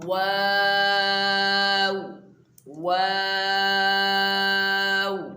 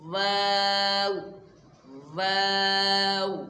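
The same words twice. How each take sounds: First: It is made with both lips rounded. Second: It is made with teeth on the lower lip. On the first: The speaker calls it right. "दोनों होठों को गोल करके वाव को अदा किया जाए" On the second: The speaker calls it wrong. "ऊपर के जो दांत हैं ये नीचे के होंठ में दबा कर"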